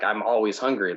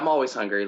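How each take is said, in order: First: It is said in a serious, marked tone. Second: It is said in a casual, offhand tone. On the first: Being always hungry is a problem. "but you didn't say it like that" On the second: Being always hungry is just normal. "It was like, oh yeah"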